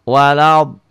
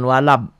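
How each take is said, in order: First: The last sound is made with the tongue. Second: The last sound is made with closed lips. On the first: The speaker calls it right. "tutupnya dengan lidah" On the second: The speaker calls it wrong. "jangan walab, jangan bibirnya jangan dimingkem. Kalau dimingkem bunyinya jadi ba"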